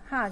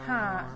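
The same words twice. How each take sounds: First: The vowel is short. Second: The vowel is drawn out long. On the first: "哈本来就是一个啊的音" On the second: "加长音哈"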